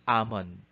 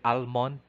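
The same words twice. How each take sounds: First: The L sound is silent. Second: The L sound is pronounced. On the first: The speaker calls it right. "It should be almond because the phoneme L is silent" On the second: The speaker calls it wrong. "we say almond, but it this is incorrect"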